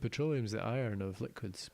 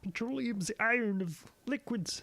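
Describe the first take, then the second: First: It is said in a non-Kermit voice. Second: It is said in a Kermit the Frog voice.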